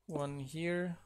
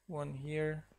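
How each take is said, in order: Both takes have the same delivery.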